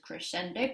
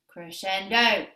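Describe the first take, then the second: First: The word is said at one steady volume. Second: The word grows gradually louder as it goes. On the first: "the fancy Italian term for this is crescendo" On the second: "we always say it like this"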